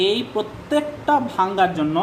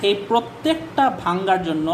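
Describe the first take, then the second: No difference in how they are said.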